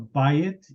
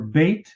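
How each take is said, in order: First: The vowels are said apart, in two syllables. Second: The vowels blend together into one syllable.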